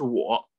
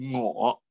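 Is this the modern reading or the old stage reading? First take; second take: modern; old. First: It is pronounced the modern standard way. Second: It is pronounced the old stage way. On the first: "我们现在念的是我" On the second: "但过去念的是我"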